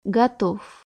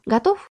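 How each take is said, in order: First: Готов said with a flat falling tune; falling answer. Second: Готов? asked with a rising tune; rising question. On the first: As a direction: drop Готов down, robot-like. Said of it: "металлическим голосом". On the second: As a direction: lift the end of Готов? into a question. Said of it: "Ну, тогда я тебя выключаю". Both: Acted.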